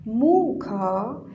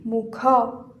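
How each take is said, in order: First: The stress is on the first syllable. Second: The stress is on the second syllable.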